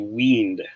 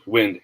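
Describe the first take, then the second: First: The vowel is long, as in 'wine'. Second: The vowel is short, as in 'win'. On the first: The speaker calls it wrong. "hindi wind" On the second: The speaker calls it right. "Short E"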